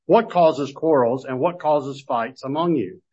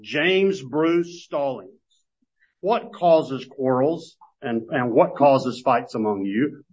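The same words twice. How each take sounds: First: Said in the usual way. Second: Slow, pointed reading of the question aimed at one person; personal address. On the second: Shown as a demonstration. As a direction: read it slowly, as if calling him by his full name. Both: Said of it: "it's written more like this".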